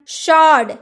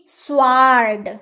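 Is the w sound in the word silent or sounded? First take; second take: silent; sounded. First: The w sound is silent. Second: The w sound is pronounced. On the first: The speaker calls it right. "शॉर्ड ना कि" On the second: The speaker calls it wrong. "ना कि स्वार्ड"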